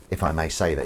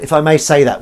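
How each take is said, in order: First: Said in the usual way. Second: Higher and much louder; emphatic repeat. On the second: Real, not acted. Host praising a local reporter, emphatic and loud. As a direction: proclaim it grandly.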